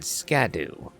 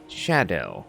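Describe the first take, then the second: First: The word begins with an sk sound. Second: The word begins with an sh sound. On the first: The speaker calls it wrong. "I read skadoo" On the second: The speaker calls it right. "it actually is pronounced shadow"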